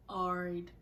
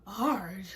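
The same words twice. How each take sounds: First: Even, unbothered short reply; imitating a couldn't-care-less texter; nonchalant. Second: Sharper, questioning repeat; retold indignant one-word question; incredulous echo. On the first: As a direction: drop it with no interest. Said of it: "every nonchalant response". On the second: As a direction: throw it back in disbelief. Echoing his reply in disbelief.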